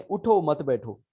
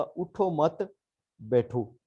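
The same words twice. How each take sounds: First: "उठो" set apart, then "मत बैठो" together; phrase it as "उठो", then "मत बैठो" as one command; break after उठो. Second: "उठो मत" as one group, pause, then "बैठो"; phrase it as "don't get up", pause, "बैठो"; pause before बैठो. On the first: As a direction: slowly, split उठो off from मत बैठो. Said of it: "meaning different है". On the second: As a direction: run उठो into मत, break, then a separate बैठो. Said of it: "अब इसका मतलब और है". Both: Shown as a demonstration.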